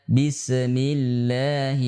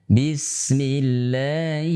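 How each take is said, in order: No difference in how they are said.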